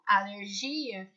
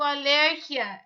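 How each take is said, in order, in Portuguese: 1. Ela é acentuada seguindo o padrão português. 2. Ela é acentuada seguindo o padrão espanhol. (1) "em português eu digo" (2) "Em espanhol, eu digo"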